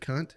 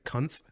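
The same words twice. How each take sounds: First: The word ends with a plain t sound. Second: The word ends with an added th sound. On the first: The ordinary form of the word. "they think that you said" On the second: A technical variant that confuses listeners. "you can throw like a th on the end of it, so it's like"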